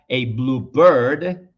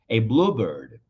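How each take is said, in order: First: The stress is on bird. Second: The stress is on blue.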